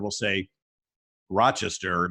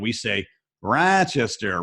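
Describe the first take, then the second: First: It is said with a general, non-local pronunciation. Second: It is said with a local, regional pronunciation. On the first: This is how people from elsewhere say it. "most people outside of Rochester, will say Rochester" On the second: This is how locals say it.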